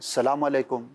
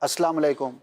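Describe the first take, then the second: First: The greeting starts without the opening syllable. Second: The greeting drops the u after salam. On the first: "ये दोनों जो मैंने अल्फाज़ कहे गलत हैं" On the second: "ये दोनों जो मैंने अल्फाज़ कहे गलत हैं"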